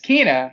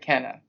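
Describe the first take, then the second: First: The first vowel is a long 'ee' sound. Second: The first vowel is a short 'e' sound. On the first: This is how the name is really said. The speaker calls it right. "it's Kina" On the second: This is how the spelling reads. The speaker calls it wrong. "the way it's written, it looks like Kenna"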